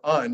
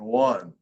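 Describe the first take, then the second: First: The word begins with a plain vowel sound. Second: The word begins with a W sound. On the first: The speaker calls it wrong. "You don't say unce or un" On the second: The speaker calls it right. "You say once or one"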